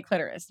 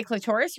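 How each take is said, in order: First: Clitoris as "KLIT-er-is"; stress on first syllable. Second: Clitoris as "kluh-TOR-is"; stress on second syllable. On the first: Asking co-host which they normally say, clitoris as "KLIT-er-is". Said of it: "or you say clitoris normally". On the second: Asking co-host which they normally say, clitoris as "kluh-TOR-is". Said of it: "So you say clitoris or". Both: Shown as a demonstration.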